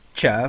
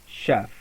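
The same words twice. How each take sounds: First: The word begins with a hard ch sound. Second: The word begins with a soft sh sound. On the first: The speaker calls it wrong. "we don't say chef" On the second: The speaker calls it right. "in these words the sound produced is sh, not ch"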